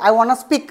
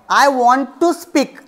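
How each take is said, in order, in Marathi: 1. 'want to' चा एक आकुंचित शब्द होतो. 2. 'want to' पूर्ण दोन शब्द म्हणून म्हटला जातो. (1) "असं ते म्हणतील" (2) "असं म्हणायचं असेल"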